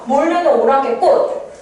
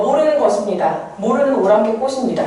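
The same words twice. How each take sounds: First: "모르는 오랑캐 꽃." drawn out slowly; noun-phrase ending. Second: Said in the usual way. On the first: Shown as a demonstration. Teacher showing a poem's noun ending, "모르는 오랑캐 꽃." said slowly. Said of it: "하고 끝내는 게 무슨 차이가 있냐는 거죠". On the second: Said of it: "이렇게 할 때랑".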